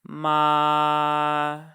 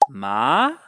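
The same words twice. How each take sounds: First: The pitch stays high and level throughout. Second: The pitch rises from low to high. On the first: "we're starting fairly high in my register and we're staying at that level" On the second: "the rising or second tone"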